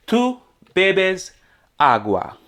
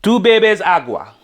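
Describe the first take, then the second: First: "Tú", "bebes", "agua" each set apart by pauses; word by word. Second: Said in the usual way. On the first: Shown as a demonstration. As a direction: break it up for learners, a pause after each word. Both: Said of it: "So let's translate a sentence".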